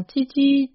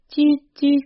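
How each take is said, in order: First: Said in the usual way. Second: Titi pitched high and louder; husband calling his dog ever higher as night falls; plaintive high call. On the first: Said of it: "titi lamentable". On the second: A narrator's reading. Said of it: "titi lamentable, plus aigu".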